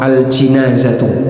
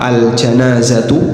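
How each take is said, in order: First: The first syllable has the vowel i. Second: The first syllable has the vowel a. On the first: "bisa juga dibaca jim di kasrah" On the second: "bisa dibaca pakai jim di fathah"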